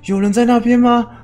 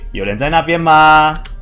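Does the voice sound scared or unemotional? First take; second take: scared; unemotional. First: It is said fearfully, with anxious emotion. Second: It is said flatly, with no fear. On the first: The character is afraid in an unfamiliar place. The speaker calls it right. "应该是要这样子，" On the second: The character does not react to the strange place. The speaker calls it wrong. "而不是那边走过去，"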